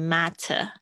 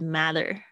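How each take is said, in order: First: British accent, the t is crisp. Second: American accent, the t is flapped.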